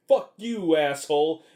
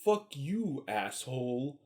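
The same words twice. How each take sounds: First: Shouted higher and louder; mock yell. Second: Dry and cool, trailing softer; deadpan. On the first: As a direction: bark it at him like a cornered thug. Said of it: "and he's like". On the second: Retold or imitated. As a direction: toss it off like it's nothing. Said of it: "Schwarzenegger's just like".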